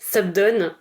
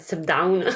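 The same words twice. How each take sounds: First: The second syllable has no English 'ow' glide. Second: The second syllable has an English 'ow' glide. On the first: The speaker calls it right. "ça se dit Subdown" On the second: The speaker calls it wrong. "et pas Subdown"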